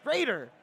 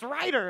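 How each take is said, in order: First: The first vowel sounds like 'ray'. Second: The first vowel sounds like 'rye'. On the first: The name is read as in Japanese romanization. The speaker calls it wrong. "I see like Ray as an Evangelion" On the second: The name is read as in English. The speaker calls it right. "But it's Ryder"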